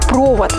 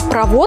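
First: The stress is on the first syllable. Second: The stress is on the second syllable. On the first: It means a metal wire. "провод – это металлическая проволока" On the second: It means a conductor of something. "а провод – проводник чего-либо"

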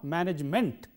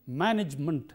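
First: The final syllable has a full vowel, 'ment'. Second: The final syllable has a reduced vowel, 'munt'. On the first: The speaker calls it wrong. "not management" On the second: The speaker calls it right. "the vowel sound here is munt"

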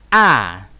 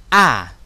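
Both takes have the same delivery.

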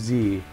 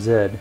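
First: The letter is said as 'zee'. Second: The letter is said as Canadian 'zed'.

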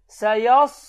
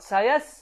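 First: The middle s sound is heavy and thick. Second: The middle s sound is light and thin. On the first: The speaker calls it right. "qalınlığını itirmədən bu formada oxuyuruq" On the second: The speaker calls it wrong. "sad hərfini sinlə tələffüz edir ... düzgün deyil"

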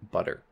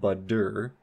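First: The middle consonant is a quick flap. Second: The middle consonant is a full d stop. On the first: The speaker calls it right. "it is a flat butter" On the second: The speaker calls it wrong. "This isn't a duh, as in butter"

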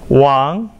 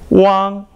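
First: The pitch rises from middle to high. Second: The pitch stays high and level.

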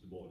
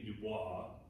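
First: The name is pronounced not the French way. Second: The name is pronounced the French way. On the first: The speaker calls it right. "he didn't pronounce it that way... It's Du Bois" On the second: The speaker calls it wrong. "if you know anything about French, you look at that and you think, well, shouldn't it be Du Bois?"

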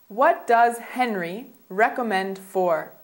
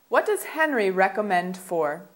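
First: The sentence is spoken at a slower pace. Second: The sentence is spoken at a faster pace.

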